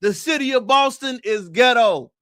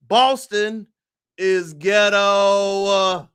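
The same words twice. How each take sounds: First: Shouted declaration. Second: Boston, then a long stretched is ghetto; drawn-out declaration. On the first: Host to viewers, repeating his verdict as a full shout. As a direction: shout the whole line out loud. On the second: Host to viewers, announcing his verdict slowly and deliberately. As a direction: drag out the verdict slowly for effect. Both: Real, not acted.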